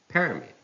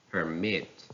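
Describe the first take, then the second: First: "permit" as PER-mit; stress on first syllable. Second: "permit" as per-MIT; stress on second syllable. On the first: Teacher reading a noun, "permit" stressed on PER. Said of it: "stress on the first syllable". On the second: Teacher reading a verb, "permit" stressed on MIT. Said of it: "stress falls on the second syllable". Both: Shown as a demonstration.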